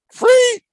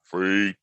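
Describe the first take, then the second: First: Much higher, louder squeal of disbelief; mock astonished. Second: Said in the usual way. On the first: To viewers about free videos, mock astonished squeal. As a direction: shriek the word like you can't believe it.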